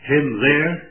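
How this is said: It is said as an exclamation. "whether you speak them as an exclamation"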